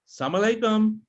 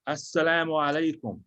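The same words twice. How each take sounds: First: The greeting is said quickly and rushed. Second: The greeting is said slowly and carefully.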